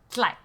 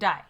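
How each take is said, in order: First: The word begins with a tl sound. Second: The word begins with a d sound. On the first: This is how Hmong Leng speakers say it. "Hmong Lang they say tlai" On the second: This is how Hmong Daw speakers say it. "Hmong Dai they say dai"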